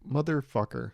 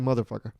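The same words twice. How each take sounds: First: Each syllable is pronounced separately and carefully. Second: The syllables run together in one smooth roll. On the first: The speaker calls it wrong. "I don't articulate motherfucker. I don't say that" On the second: The speaker calls it right. "I kind of like roll through it"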